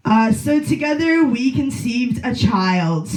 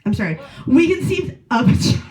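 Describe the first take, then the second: First: Said in the usual way. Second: Put-on OF a child, correcting with a firm push on "of"; self-correction to an audience, leaning on "of"; stress on OF. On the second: Shown as a demonstration. Comic self-correction, stressing "of" in "we conceived of a child".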